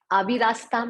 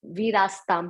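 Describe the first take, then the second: First: "अविरास्ताम" with the a, rising; "अविरास्ताम" as the wrong reading; wrong form. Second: "वीरास्ताम" without the a, falling; "वीरास्ताम" as the correct reading; right form. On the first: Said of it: "नहीं पढ़ेंगे". ("अविरास्ताम" गलत उच्चारण) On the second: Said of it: "पढ़ेंगे". ("वीरास्ताम" सही उच्चारण) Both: Shown as a demonstration.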